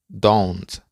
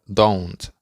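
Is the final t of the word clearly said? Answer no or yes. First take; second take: yes; yes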